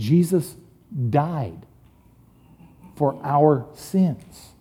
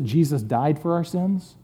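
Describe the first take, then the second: First: The word 'died' is strongly stressed. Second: The word 'died' gets no special stress.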